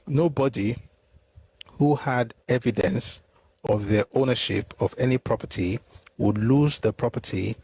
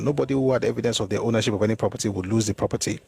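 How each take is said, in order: First: The sentence is read slowly and deliberately. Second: The sentence is read at a normal pace.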